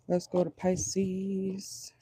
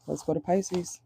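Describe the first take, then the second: First: Very slow, softer, stretched-out words; drawn-out. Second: Said in the usual way. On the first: Real, not acted. Reader moving on to the next sign, slow drawn-out delivery. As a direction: stretch "Pisces" out slowly and softly.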